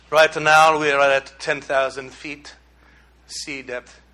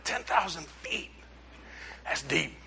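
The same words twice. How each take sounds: First: Low, half-hearted Italian captain; attempted Italian accent. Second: Very soft, slow, amazed echo; hushed awe. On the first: Preacher imitating the ship's captain, attempted Italian accent. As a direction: have a rough go at an Italian accent. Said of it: "can't even do an Italian voice". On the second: Retold or imitated. Preacher recalls reacting to the captain's depth figure, hushed. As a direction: say it under your breath, impressed.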